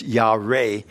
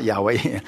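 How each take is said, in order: First: "Yahweh" said slowly as yah-RAY, with an r; "Yahweh" with an r opening the second syllable; correct Hebrew word shown. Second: "Yahweh" said YAH-way, with a w; look-alike word shown. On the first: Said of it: "but it's not Yahweh". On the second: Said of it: "Almost sounds like Yahweh, but it's not". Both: Shown as a demonstration.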